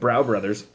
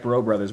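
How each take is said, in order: First: The first word rhymes with cow. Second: The first word rhymes with go. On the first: The speaker calls it wrong. "been pronouncing it Brow Brothers" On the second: The speaker calls it right. "So it is in fact Bro Brothers"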